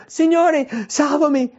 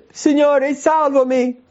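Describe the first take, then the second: First: A sinking man calls to the Lord; crying out. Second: High, loud, desperate cry; sinking Peter cries out to the Lord. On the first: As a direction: Peter cries out as he sinks. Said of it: "gridò dicendo". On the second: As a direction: shout it like a man going under. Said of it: "E grida". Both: Acted.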